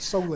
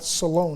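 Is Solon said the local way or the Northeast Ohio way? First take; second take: Northeast Ohio; local. First: Solon is said the Northeast Ohio way. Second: Solon is said the local southern Ohio way. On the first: The speaker calls it wrong. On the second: The speaker calls it right.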